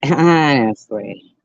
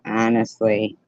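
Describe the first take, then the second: First: HONESTLY louder and drawn out; emphatic repeat. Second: Said in the usual way. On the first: Real, not acted. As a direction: stretch HONESTLY with exasperated force. Exasperated repeat of the word.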